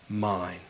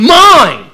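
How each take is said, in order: First: It is said in a calm, warm, authoritative way. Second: It is said in a sulky, bratty way. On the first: He claims you with authority and love. The speaker calls it right. "with all authority and all love and all grace" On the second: A selfish teenager is being possessive. The speaker calls it wrong. "he also doesn't sound like a brat teenager going"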